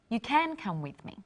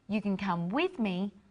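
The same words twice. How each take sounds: First: The word "can" carries the main stress. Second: The word "you" carries the main stress. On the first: Coming is now allowed, unlike before. "Before we thought you couldn't come with me, but now you can" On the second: The listener, rather than the speaker, may come. "or I can go by myself"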